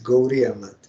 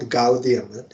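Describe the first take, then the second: First: The middle consonant is a soft R sound. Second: The middle consonant is a clear D sound. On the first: The speaker calls it right. "it is Gauriya Mat ... so that is soft R" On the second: The speaker calls it wrong. "it is not Gaudiya Mat"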